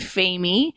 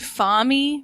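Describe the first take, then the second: First: The name is said without an 'ah' vowel. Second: The name is said with an 'ah' vowel. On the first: The speaker calls it right. "rather than Famey" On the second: The speaker calls it wrong. "we said Fami rather than Famey"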